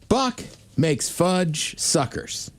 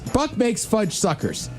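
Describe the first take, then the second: First: It is said at a normal pace. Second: It is said fast.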